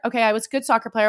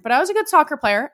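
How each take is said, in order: First: Said in the usual way. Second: "good" pushed higher and louder, quick insistent boast; emphatic boast. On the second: Real, not acted. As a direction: lean hard on "good", half-joking pride.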